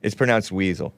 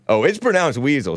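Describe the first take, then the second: First: Said in the usual way. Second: Lilting, mock "oh" leading the correction; quoted viewer's correction. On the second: Host repeating a viewer's comment, mock correction. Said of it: "says Will Cole".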